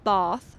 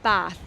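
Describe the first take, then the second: First: It is said in a posh, upper-class accent. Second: It is said in a local countryside accent. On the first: The speaker is upper class. "If you are posh, you will pronounce this city as Bath, Bath, like this" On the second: The speaker is from the countryside. "if you are from the countryside, you will say Bath, like this"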